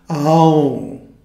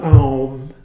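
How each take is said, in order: First: The word ends in a hum, then silence. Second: The word ends abruptly with no held hum. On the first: The speaker calls it right. "A-U-N, and then a moment of silence" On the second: The speaker calls it wrong. "it's not Aum"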